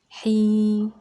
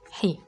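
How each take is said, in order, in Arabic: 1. الحركة ممدودة وطويلة. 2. الحركة قصيرة ومقطوعة. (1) "اسمع المد" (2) "كسرة"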